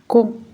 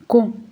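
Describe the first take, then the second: First: The syllable begins with a k sound. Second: The same.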